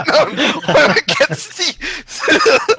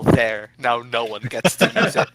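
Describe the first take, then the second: First: Much higher, louder, drawn-out laughing wail; laughing shriek. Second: Louder, hammed-up character yell; mock yell. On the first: Acted. Player repeats Paulson's spiteful line, shrieking with laughter. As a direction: stretch it out in a hammed-up screech through laughter. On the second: Player acts out Paulson spiting the rowboat, mock yell. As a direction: call it out in a half-laughing mock shout. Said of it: "going to shoot the rowboat and yell".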